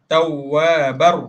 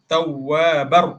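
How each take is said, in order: First: The word ends with an r sound. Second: The word ends with an r sound.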